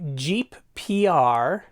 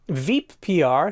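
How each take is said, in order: First: The name begins with a J sound. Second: The name begins with a V sound. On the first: The speaker calls it wrong. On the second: The speaker calls it right.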